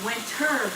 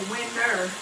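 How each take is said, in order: First: The t is clearly pronounced in the middle. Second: The t is dropped, sounding like winner. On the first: The speaker calls it right. "I'm saying winter" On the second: The speaker calls it wrong. "I'm not saying winter. W I N N E R"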